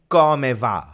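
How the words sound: The first word begins with a hard K sound. This is how standard Italian says it. "in Italian you say come va Paul with a C"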